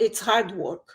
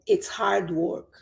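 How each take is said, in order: First: The phrase is said fast with sounds run together. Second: The phrase is said slowly and clearly. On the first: "se eu for falar rápido" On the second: "Eu estou falando mais claro para dar o exemplo"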